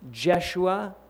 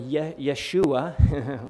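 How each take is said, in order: First: The name begins with a J sound. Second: The name begins with a Y sound.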